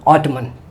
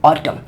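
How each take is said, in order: First: The word ends with a clear n sound. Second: The word ends on the m sound. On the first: The speaker calls it wrong. "ऐसे तो नहीं पढ़ेंगे ना" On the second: The speaker calls it right. "यन क्या हुआ, silent हो गया"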